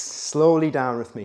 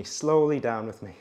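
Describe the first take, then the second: First: Slow, drawn-out instruction; slow coaching cue. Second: Said in the usual way. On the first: Shown as a demonstration. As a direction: stretch the words to pace the movement.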